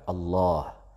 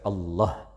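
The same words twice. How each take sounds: First: The vowel after the l is held long. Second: The vowel after the l is cut short. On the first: The speaker calls it right. "nama Tuhan kita adalah Allah" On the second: The speaker calls it wrong. "Jadi jangan dibaca Allah"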